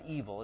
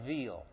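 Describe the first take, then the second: First: It sounds like the ordinary English word evil. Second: It sounds different from the English word evil. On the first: The speaker calls it wrong. "not evil" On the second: The speaker calls it right. "it's Evil. It looks like our word evil, but it's really not"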